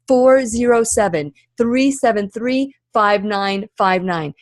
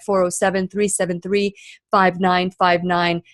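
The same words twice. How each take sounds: First: The number is read at a slower pace. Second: The number is read at a faster pace.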